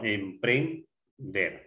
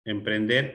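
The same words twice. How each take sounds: First: "Emprender" slowly as em-pren-der; syllable by syllable. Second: Said in the usual way. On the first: Shown as a demonstration. Teacher separating the word for the class, syllable by syllable. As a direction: split "Emprender" slowly, pausing before the last syllable. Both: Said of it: "Separar en sílabas".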